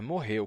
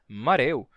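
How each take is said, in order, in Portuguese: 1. A primeira vogal soa como 'o'. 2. A primeira vogal soa como 'a'. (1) "o que ela queria dizer era morreu" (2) "pronunciar morreu como mareu obviamente não faz sentido nenhum para qualquer falante de português"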